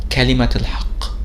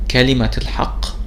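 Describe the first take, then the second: Both takes have the same delivery.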